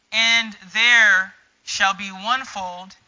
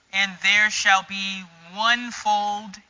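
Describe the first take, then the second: No difference in how they are said.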